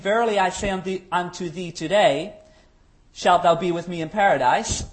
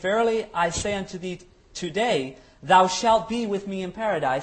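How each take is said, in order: First: The pause comes after 'today'. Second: The pause comes before 'today'.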